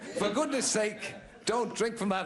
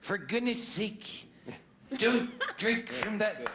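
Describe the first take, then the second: First: It is read in a plain, normal voice. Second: It is read in a put-on character voice.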